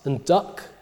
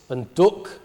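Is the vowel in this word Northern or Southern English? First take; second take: Southern; Northern. First: It has the open southern ah vowel. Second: It has the rounded northern vowel. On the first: "in the south, you get ah in words like" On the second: "In the north, you get"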